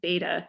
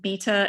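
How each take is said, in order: First: It is said with an American accent. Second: It is said with a British accent. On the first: "American English" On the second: "British English"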